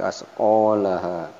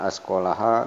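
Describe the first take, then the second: First: The vowel after the q is held long. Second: The vowel after the q is short. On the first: The speaker calls it right. "panjangnya asqalaha, ... tapi asqalaha" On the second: The speaker calls it wrong. "bukan asqalaha"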